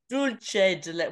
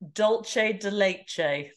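First: The first word is said like 'dulce'. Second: The first word is said like 'dolce'. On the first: The speaker calls it right. "It's dulce" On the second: The speaker calls it wrong. "I'm not even sure if I'm saying that right"

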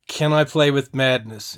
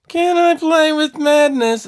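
First: It is said in a plain, normal voice. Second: It is said in a whiny voice.

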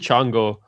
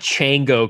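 First: The name is said with a Spanish-like sound. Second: The name is said with an anglicized sound. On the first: The speaker calls it right. "It's probably Chango" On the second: The speaker calls it wrong. "It's definitely not Chango Club"

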